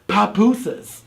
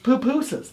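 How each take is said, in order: First: The first syllable has an 'ah' vowel. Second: The first syllable has an 'oo' vowel. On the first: The speaker calls it wrong. "They say papusas, and it's not papusas" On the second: The speaker calls it right. "It's poo pusas. You know, it's pupusas"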